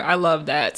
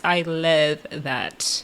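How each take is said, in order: First: Said in the usual way. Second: Very slow, low and soft; low, lingering emphasis on "love"; drawn-out approval. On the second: Real, not acted. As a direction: stretch LOVE right out, savoring it.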